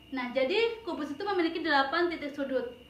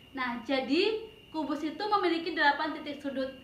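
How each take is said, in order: The two takes are said the same way.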